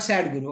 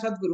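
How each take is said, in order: First: It is said as 'sad' followed by 'Guru'. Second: It is said as one single name. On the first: A teacher who is unhappy. The speaker calls it wrong. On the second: A title for a realized teacher. The speaker calls it right.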